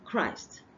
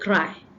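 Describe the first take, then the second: First: The final consonant sound is clearly pronounced. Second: The final consonant sound is left off. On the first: The speaker calls it right. "I must pronounce the last consonant" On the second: The speaker calls it wrong. "I did not pronounce the last T sound"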